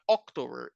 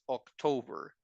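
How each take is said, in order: First: The stress is not on the middle syllable. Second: The stress is on the middle syllable. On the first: The speaker calls it wrong. "It's not October" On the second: The speaker calls it right. "have the stress of the word in the middle of the word"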